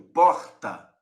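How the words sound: The R is pronounced in the throat. This is how it is said in Rio de Janeiro. "Você consegue ouvir o R fluindo aqui da minha garganta"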